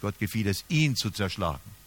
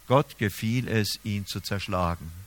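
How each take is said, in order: First: The stress falls on the word ihn. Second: The stress is not on ihn. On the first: It was this one person who was struck. The speaker calls it right. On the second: God took pleasure in the suffering itself. The speaker calls it wrong.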